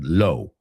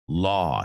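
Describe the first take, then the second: First: The vowel sounds like 'oh', as in 'low'. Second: The vowel is an open 'aw' sound. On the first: The speaker calls it wrong. "I've heard it mispronounced millions of times. I've heard low" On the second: The speaker calls it right. "and it's aw"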